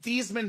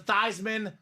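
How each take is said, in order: First: The first syllable does not rhyme with Heisman. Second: The first syllable rhymes with Heisman. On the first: This is the family's original pronunciation. "let's change your name from" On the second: This version was chosen to match the trophy. "so you can be the Heisman Trophy"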